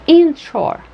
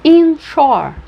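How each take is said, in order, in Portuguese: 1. A primeira sílaba tem acento secundário; a segunda tem o principal. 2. A primeira sílaba tem acento secundário; a segunda tem o principal.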